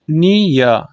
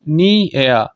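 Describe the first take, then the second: First: नियर pulled apart as "nee... ya"; diphthong split. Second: नियर pulled apart as "nee... e-ya"; diphthong split. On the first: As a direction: hold "nee" in नियर, then glide to "ya". (नियर को "नी... या" तोड़कर) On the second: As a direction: sound out each vowel in नियर, ending "e-ya". (नियर को "नी... एया" तोड़कर) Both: Shown as a demonstration. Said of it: "एक vowel से मैं दूसरे vowel की तरफ गया".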